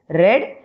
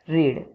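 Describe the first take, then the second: First: The vowel is short, rhyming with bed. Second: The vowel is long, rhyming with need. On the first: The action happened in the past. "For past tense we will pronounce it as read" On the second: The action happens now or later. "for future and present tense we will pronounce it as read"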